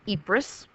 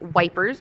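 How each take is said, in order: First: It is said without the 'w' sound. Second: It sounds like the English word 'wipers'. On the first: This is the town's actual name. The speaker calls it right. "it is called Ypres" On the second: Soldiers who did not know the name said it this way. The speaker calls it wrong. "the British soldiers, not really understanding how to pronounce this, often called it wipers"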